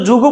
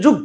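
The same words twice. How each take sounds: First: "যুগও" said ju-go, ending on an o; vowel kept. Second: "যুগ" ending shut on the g; vowel dropped. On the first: Teacher showing what we don't say, vowel left on g. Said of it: "আমরা তো যুগও বলি না". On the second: Teacher showing what we do say, closed final g. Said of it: "আমরা বলছি যুগ". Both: Shown as a demonstration.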